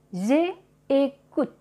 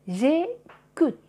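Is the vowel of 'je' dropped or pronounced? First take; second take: pronounced; dropped. First: The vowel of je is pronounced separately. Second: The vowel of je is dropped and joined. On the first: The speaker calls it wrong. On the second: The speaker calls it right.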